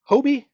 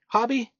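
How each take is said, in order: First: The first vowel is long, like 'hoe'. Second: The first vowel is short, like 'hob'. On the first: This is how the company says it. "someone from the actual company saying Hobie" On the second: This is how the speaker used to say it. "I always pronounced it Hobby"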